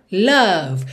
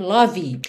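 First: LOVE as one syllable, "luv"; correct pronunciation. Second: LOVE as two syllables, "LAW-vee"; wrong final vowel. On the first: Teacher giving the right form, LOVE as "luv". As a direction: say LOVE with an uh and end on V. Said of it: "A gente tem". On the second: Teacher warning never to say it, LOVE as "LAW-vee". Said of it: "cuidado pra nunca dizer love". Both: Shown as a demonstration.

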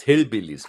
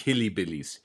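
First: Hillbillies said as Hill-billies, two syllables before -billies; correct pronunciation. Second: Hillybillies with an extra y sound, Hilly-billies; wrong pronunciation. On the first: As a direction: Hillbillies with no y sound in the middle. (Hillbillies korrekt als Hill-billies ausgesprochen) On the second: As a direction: Hillybillies stretched to four syllables. (Hillybillies falsch mit eingeschobenem i ausgesprochen) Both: Shown as a demonstration. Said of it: "man sagt nicht Hillybillies".

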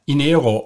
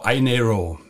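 First: Inero starting with an "ee" sound; German pronunciation. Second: Inero starting with an "eye" sound; English pronunciation. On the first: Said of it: "That's the German pronunciation". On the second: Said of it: "I N E R O in English". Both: Shown as a demonstration.

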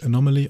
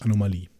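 First: "Anomaly" said the English way, stressed on NOM; "Anomaly" in English, with a light final -ly; English pronunciation. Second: "Anomalie" said the German way, stressed on the final LIE; "Anomalie" in German, ending on a stressed -lie; German pronunciation. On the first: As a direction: say "Anomaly" as an English word, stress on the second syllable. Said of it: "auf Englisch". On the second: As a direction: say "Anomalie" as a German word, long stressed ee at the end. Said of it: "auf Deutsch Anomalie". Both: Shown as a demonstration.

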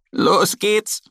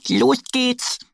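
First: Higher squawked echo; parrot squawk. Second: Much higher eager shout; eager duck. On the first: The parrot echoes Annie, squawking. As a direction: croak it like a parrot. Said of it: "krächzt auch Pirili". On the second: Annie starts them off, high eager voice. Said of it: "sagt Annie". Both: Acted.

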